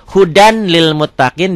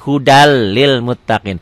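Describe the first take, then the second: First: The n sound is clearly pronounced before lil. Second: The n merges into a doubled l sound. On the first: "Tulisannya kan hudan" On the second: "dibacanya jadi hudal lil muttaqin. N-nya jadi hilang"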